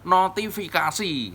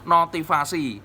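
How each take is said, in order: First: It is said in full as notifikasi. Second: It is clipped to notivasi, missing a syllable. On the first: The speaker calls it right. "Jadi yang benar notifikasi" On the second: The speaker calls it wrong. "kita sering menyebut notivasi uh, karena uh, terlalu cepat kita mengucapkan"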